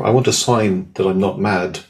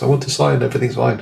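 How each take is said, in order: First: Said in the usual way. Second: Half-hearted cry at the sky; mock shout to the universe. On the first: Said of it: "I was saying". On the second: To the universe on a cold hill, a mock shout. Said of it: "shouting at the universe".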